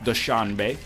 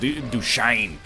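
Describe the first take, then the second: First: The word ends with a 'bay' sound. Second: The word ends with an 'ain' sound. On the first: "Probably not pronounced that" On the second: "It might be like Dushain"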